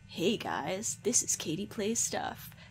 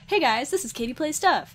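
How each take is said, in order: First: It is said in a slightly sinister voice. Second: It is said in a normal voice.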